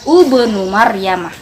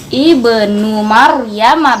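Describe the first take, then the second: First: The first word begins with a u vowel. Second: The first word begins with an i vowel. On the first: The speaker calls it wrong. "bukan ubnu Maryamah" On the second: The speaker calls it right. "ibnu Maryamah bacanya ya"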